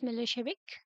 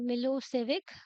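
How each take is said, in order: First: The middle consonant is an 'sh' sound. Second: The middle consonant is a plain 's' sound.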